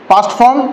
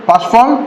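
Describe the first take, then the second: The two takes are said the same way.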